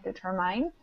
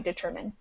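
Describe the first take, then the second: First: The last syllable has a long 'eye' vowel. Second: The last syllable has a short 'i' vowel. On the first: The speaker calls it wrong. "you pronounce the I like an I sound" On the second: The speaker calls it right. "We pronounce it like a short I"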